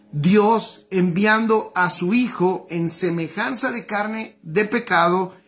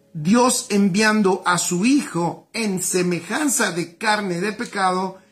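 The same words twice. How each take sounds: The two takes are said the same way.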